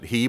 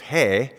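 First: The letter name is said the anglicized way. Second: The letter name is said the Hebrew way. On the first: The speaker calls it wrong. "We would pronounce it He" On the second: The speaker calls it right. "but it's He"

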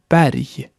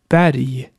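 First: The final g sounds like a y. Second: The same.

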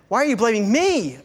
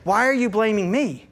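First: The pronoun me is strongly stressed. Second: The pronoun me is not stressed. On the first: "How often do we place the emphasis on personal pronouns?" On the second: "Or if they say"

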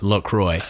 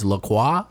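First: The word is pronounced the American way. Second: The word is pronounced the French way. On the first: "the company has come out and said that it's pronounced La Croix" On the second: "The French way to pronounce the word is La Croix"

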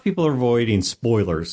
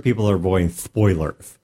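First: It is said in a plain voice. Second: It is said with a put-on lisp. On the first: Ordinary people who avoid spoilers. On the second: Overly fussy people who get mad about trailer details.

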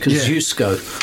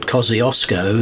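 First: The name is said with a Polish pronunciation. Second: The name is said with an English pronunciation. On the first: The speaker calls it right. "It's in Polish, it's Kosciuszko" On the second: The speaker calls it wrong. "You pronounced it Kosciuszko"

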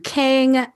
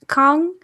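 First: The name is said with an English spelling pronunciation. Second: The name is said with a Korean pronunciation. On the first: The speaker calls it wrong. "do Kang with the way that it's written out in English" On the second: The speaker calls it right. "Jae Hee Kang's last name would be pronounced Kang"

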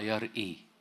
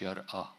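First: The word ends with an 'e' or 'i' vowel. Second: The word ends with an open 'a' vowel. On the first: It means 'he sees'. The speaker calls it right. "فنطقها يرأي" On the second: It means 'revered' or 'awesome'. The speaker calls it wrong. "مش يرأى ... المفتوحة"

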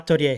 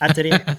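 First: It is said the Japanese way, ending in -orya. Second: It is said the French way, ending in -ay. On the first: "اليابانيين يقولونها اتوريا" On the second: "ال pronunciation الصحيح مالها مفروض إنه يكون فرنسي"

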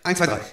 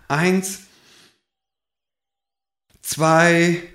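First: The counting is said quickly. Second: The counting is said slowly.

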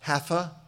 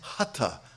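First: The middle consonant is an English th sound. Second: The middle consonant is an aspirated t sound. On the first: The speaker calls it wrong. "Mispronounced often as hatha. Please don't say that" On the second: The speaker calls it right. "There's no tha in Sanskrit. so the H is aspirated"

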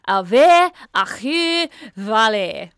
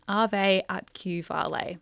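First: It is said with an exaggerated foreign accent. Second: It is said plainly in a normal voice. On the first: This is how someone else would say it. "If that was you, it would be" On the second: This is the speaker's own normal way of saying it. "But I just said"

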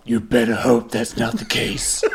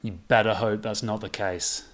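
First: It is said with a heavier growl. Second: It is said with only a light growl.

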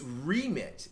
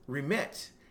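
First: The stress falls on the first syllable. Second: The stress falls on the second syllable. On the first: It is a noun: a person's job duties and authority. "But as a noun, it's remit" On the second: It is a verb: to cancel something or send money. "So as a verb, it's remit"

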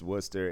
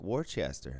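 First: The name is clipped short, not as spelled. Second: Every written syllable of the name is sounded out. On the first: The speaker is local to the area. The speaker calls it right. "It's just Worcester" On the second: The speaker is not from the area. The speaker calls it wrong. "people who are not from there and they're like, oh, look, Worcester"

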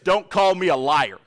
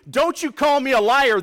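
First: It is said mildly, without much force. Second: It is said forcefully, with strong emphasis.

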